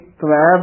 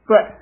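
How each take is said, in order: First: The word is said as tavai. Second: The word is said as tai. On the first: The speaker calls it wrong. "ਕਈ ਤਵੈ ਬੋਲਦੇ ਹਨ" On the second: The speaker calls it right. "ਸ਼ੁੱਧ ਉਚਾਰਨ ਹੈ ਤੈ"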